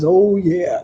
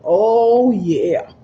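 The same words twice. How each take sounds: First: It is said in a deep, man's voice. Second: It is said in her normal voice.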